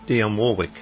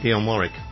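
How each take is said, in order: First: Warwick is pronounced the American way. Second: Warwick is pronounced the English way. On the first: "I had to learn to say Dionne Warwick, because we don't say it like that in England" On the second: "We say Dionne Warwick"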